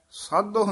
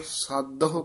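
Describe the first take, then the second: First: "ਸਾਧੋ" run together as saadoh; mispronunciation demo. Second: "ਸਾਧੋ" with a dadda d, then a separate ho; correct pronunciation. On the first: Teacher warning against a wrong form, "ਸਾਧੋ" as saadoh. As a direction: squash "ਸਾਧੋ" into two syllables, saa-doh. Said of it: "ਨਹੀਂ ਕਹਿਣਾ ਹੈ". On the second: Teacher giving the right form, "ਸਾਧੋ" as saad-a-ho. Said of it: "ਦੱਦੇ ਨਾਲ ਉਚਾਰਨ ਕਰਨਾ ਹੈ". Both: Shown as a demonstration.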